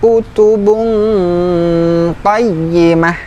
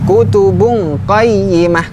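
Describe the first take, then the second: First: The nasal n sound is held without hurrying. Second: The nasal n sound is rushed and clipped. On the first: The speaker calls it right. "ini pada ikhfa-nya saja yang perlu ditekankan, jangan buru-buru ya" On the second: The speaker calls it wrong. "kurang tepat"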